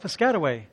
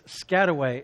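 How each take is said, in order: First: The word begins with a pronounced P sound. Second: The word begins without any P sound.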